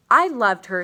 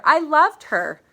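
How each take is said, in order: First: Loud, pained insistence; loud protest. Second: High, very loud, breaking into a wail; anguished cry. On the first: Father answering his son's accusation, a loud pained protest. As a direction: push back hard on the son. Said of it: "said the father". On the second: Father repeating it over his dead daughter, a high anguished cry. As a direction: let the grief burst out. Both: Acted.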